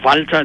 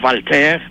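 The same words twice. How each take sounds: First: The name is said with a German pronunciation. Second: The name is said with a French pronunciation. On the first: "that's German" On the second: "that's French"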